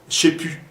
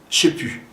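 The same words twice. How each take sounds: The two takes are said the same way.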